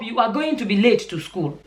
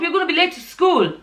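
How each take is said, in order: First: Each word is said separately and fully. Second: The words are run together with a contraction.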